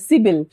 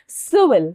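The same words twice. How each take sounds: First: The middle consonant sounds like a b. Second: The middle consonant sounds like a v. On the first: The speaker calls it wrong. "बहुत लोग इसको pronounce ब करते हैं" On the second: The speaker calls it right. "सिविल वो होगा"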